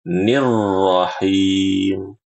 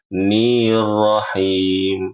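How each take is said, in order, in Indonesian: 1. Vokal 'ni' pendek, langsung lanjut. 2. Vokal 'ni' dibaca panjang. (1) "Harusnya langsung masuk" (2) "Salahnya ni-nya itu memanjang"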